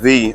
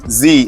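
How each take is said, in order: First: The word begins with a th sound. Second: The word begins with a buzzing z sound. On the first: The speaker calls it right. "Z instead of the" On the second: The speaker calls it wrong. "you do it wrong, and you say uh, Z instead of the"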